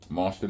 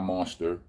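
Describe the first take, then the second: First: The word ends in an open 'ah' sound. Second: The word ends in an 'er' sound. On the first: The speaker calls it right. "That means it's an A in monster, no E R's" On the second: The speaker calls it wrong. "not monster"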